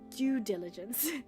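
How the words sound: 'Due' is said in a non-American accent. "I say due diligence"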